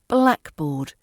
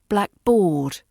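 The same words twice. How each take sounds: First: The stress is on the first part, black. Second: The stress is on the second part, board. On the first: The speaker calls it right. "The correct stress falls on the black" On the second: The speaker calls it wrong. "It sounds wrong when you say blackboard"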